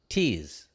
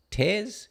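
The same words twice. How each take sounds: First: Tears with a long "ee" vowel, low and falling; TEARS as in crying. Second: Tears with an open "air" vowel, rising high; TEARS as in rips. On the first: Host settling a headline's reading, Tears said as in crying. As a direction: say Tears to rhyme with "ears". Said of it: "I think he's tears". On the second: Host puzzling over a headline, Tears said as in rips. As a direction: say Tears to rhyme with "bears", questioning. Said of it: "Husband tears or tears". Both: Shown as a demonstration.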